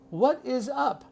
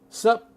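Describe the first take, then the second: First: It is said in full with three syllables. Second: It is cut down to one syllable. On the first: "No one says that" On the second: "Even shorter"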